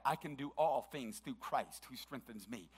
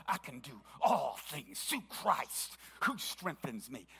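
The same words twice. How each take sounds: First: Said in the usual way. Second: Slow, defiant declaration with attitude. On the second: Shown as a demonstration. Preacher demos a declaration with attitude. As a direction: dare anyone to doubt it, slowly. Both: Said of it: "sometimes it's said with attitude".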